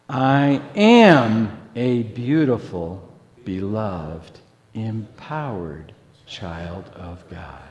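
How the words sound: The stress is on "am".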